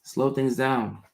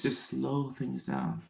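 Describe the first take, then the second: First: Slow, calm, "Slow" leaned on; slow repeat. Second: Slow, much softer, calming; slow limbic voice. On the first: Coaching a viewer to slow down, slow and even. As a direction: repeat it slowly and evenly. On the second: Coaching a viewer to slow down, slow and soft. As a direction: ease it down gently, almost murmured. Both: Shown as a demonstration. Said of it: "Use your limbic voice".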